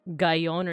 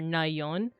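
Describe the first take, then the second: First: The word begins with a g sound. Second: The word begins with an n sound. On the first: "It's not pronounced like gayon" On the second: "or nayon"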